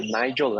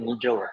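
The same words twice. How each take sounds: First: "Nigel" said with a long i, NYE-jəl; correct name pronunciation. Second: "Nigel" said as NEE-jəl, with an ee; mispronounced name. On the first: Speaker gently corrects host on his name, NYE-jəl pronunciation of "Nigel". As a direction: say "Nigel" as NYE-jəl, first vowel like "eye". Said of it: "but it's, uh, Nigel, not Nigel". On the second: Speaker echoes host's mistake with his name, NEE-jəl pronunciation of "Nigel". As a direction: say "Nigel" with first vowel like "knee". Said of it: "not Nigel". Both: Shown as a demonstration.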